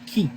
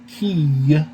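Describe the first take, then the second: First: The vowel ends plainly, without a y glide. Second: The vowel ends with an added y glide. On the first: The speaker calls it right. "You don't even have to pronounce a Y sound" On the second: The speaker calls it wrong. "This isn't key"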